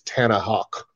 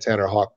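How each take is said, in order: First: The name is said in a Boston accent. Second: The name is said in a neutral accent.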